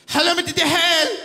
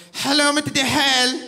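First: Higher and louder, laughing operator greeting; exaggerated call-centre voice; phone operator, louder. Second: Higher, louder operator greeting; hint of a call-centre voice; phone operator. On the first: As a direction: repeat the greeting brighter and bigger.

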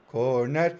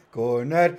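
Both takes have the same delivery.

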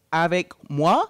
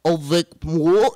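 First: "avec moi" clear, ah-vek mwah, rising at the end; correct French pronunciation. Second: Slow "Avec moi" garbled to aw-vik mool; botched French repeat. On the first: Shown as a demonstration. Full teacher prompting a student, clear "avec moi". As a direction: model "avec moi" for a learner. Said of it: "the correct pronunciation is". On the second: Retold or imitated. Student echoing the teacher, slow garbled "Avec moi". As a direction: imitate a learner dragging and mangling "Avec moi". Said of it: "and then they're like".

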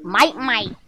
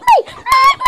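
First: Low and soft, a quiet grumbly toy. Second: Very high squeak; squeaky toy voice. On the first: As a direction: mutter it low like a grumpy doll. Kid voicing toys, low croak. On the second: Kid voicing toys, squeak. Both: Pretend.

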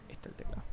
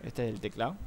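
First: Whisper. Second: Said in the usual way. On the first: Shown as a demonstration. Showing keyboard, then whispered repeat.

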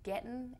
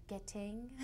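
First: Gettin' with the g dropped, Texas style. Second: Getting with a full -ing ending. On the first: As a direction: say gettin' like a Texan, no final g. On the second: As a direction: say getting with a clear final g. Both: Shown as a demonstration. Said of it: "played around a little bit with saying".

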